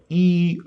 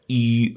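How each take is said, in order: First: The syllable has a high level tone. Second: The syllable has a sharply falling tone. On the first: It means stasis. "E first tone means stasis" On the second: It means constraint. "E fourth tone means constraint"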